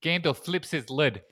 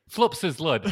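First: Put-on Kiwi accent with "lid" as "lud"; bad New Zealand accent. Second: Louder, exaggerated Kiwi "flups his lud"; broader New Zealand accent. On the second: Shown as a demonstration. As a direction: overdo the New Zealand short vowels. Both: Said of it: "the terrible New Zealand thing".

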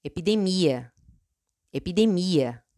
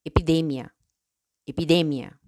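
First: "epidemia" in Portuguese, stressed on MI. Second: "epidemia" in Spanish, stressed on DE. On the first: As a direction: say "epidemia" as e-pi-de-MEE-a. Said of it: "En portugués". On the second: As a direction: say "epidemia" as e-pi-DEH-mya. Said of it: "En español". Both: Shown as a demonstration.

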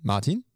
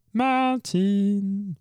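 First: Said in the usual way. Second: Drawn out and high, calling from afar; long calling out. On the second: Real, not acted. Host summons Martin across the room, drawn-out call. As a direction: stretch the name to reach him. Host calls colleague over.

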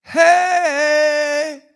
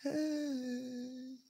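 First: Long, high, loud holler; big drawn-out call from the front door; hollered greeting. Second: High, very soft, long-held holler; faint, drawn-out far-away hey; distant answering call. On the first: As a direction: holler it through the house, stretching the vowel. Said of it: "opened up the door and hollered". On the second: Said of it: "off in the distance, I heard". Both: Retold or imitated.

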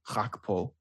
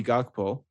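First: "Gakpo" with a throaty Dutch G at the start; "Gakpo" said as "Khakpo", as in Dutch; Dutch pronunciation. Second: Said in the usual way. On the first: Shown as a demonstration. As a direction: say "Gakpo" the Dutch way, opening on a guttural kh sound. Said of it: "in Dutch".

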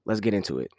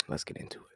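First: Said in the usual way. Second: Hushed, unvoiced whisper; much softer, all breath, no voice. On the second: Shown as a demonstration. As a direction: whisper it like a teasing echo. Intro line repeated as a whisper.

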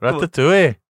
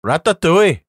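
First: A second failed stab at Welsh on "Ratatouille"; bad Welsh accent. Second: A failed attempt at a Welsh accent on Ratatouille; bad Welsh accent. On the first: Host retrying a Welsh accent, still badly. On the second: Podcast host trying a Welsh accent for friends, badly. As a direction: try a Welsh lilt on "Ratatouille" and miss. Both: Shown as a demonstration. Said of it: "that was bad, wasn't it?".

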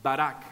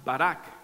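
First: Barak said ba-RAK, rolled r, hard k; Hebrew word barak. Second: Barak said ba-RAK, rolled r, hard k at the end; Hebrew word barak. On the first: Preacher repeating barak for curse: ba-RAK, final k. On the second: Teaching the Hebrew word for blessing: barak, stressed on the last syllable. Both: Shown as a demonstration. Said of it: "se pronuncia".

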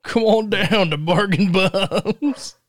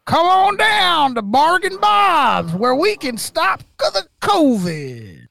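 First: Slow echo of the pitch; home shopping host. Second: High, slow pitchman voice; home shopping host. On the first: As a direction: repeat the ad line slowly. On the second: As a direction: sell it like a cheesy TV ad. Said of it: "he was flat out like". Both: Pretend.

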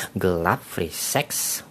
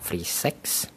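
First: Softer and slow, lingering on each word; slow hushed repeat. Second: Hushed whisper. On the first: To viewers, slowly repeating the mother's fear, hushed. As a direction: draw it out under your breath. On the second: To viewers, whispering the taboo topic of entertainment. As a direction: whisper the taboo words, no voice at all. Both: Real, not acted.

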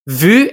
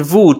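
First: Vu with the French u vowel. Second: Vous with the French oo vowel. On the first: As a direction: say vu as in French, distinct from vous. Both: Shown as a demonstration. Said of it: "those two words likely sound the same".

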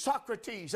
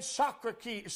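First: "Socrates" said cleanly as "SOCK-ruh-teez"; corrected name. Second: "Socrates" slurred as "sock-ruh-kee", the ending garbled; a stumbling first try at "Socrates", ending as "kee"; fumbled name. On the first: Preacher corrects himself, saying "Socrates" as "SOCK-ruh-teez". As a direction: fix it, "Socrates" with a clear "-teez" ending. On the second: Preacher trips over the name "Socrates", saying "sock-ruh-kee". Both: Real, not acted.

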